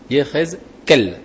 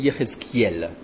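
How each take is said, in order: First: No 'ee' sound comes before the final 'el'. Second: An 'ee' sound comes before the final 'el'. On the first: The speaker calls it right. "En hébreu on dit Yéhézkel. D'accord? Sans le i" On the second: The speaker calls it wrong. "tous les francophones ... pensent qu'en hébreu on dit Yéhézkiel. Mais c'est faux"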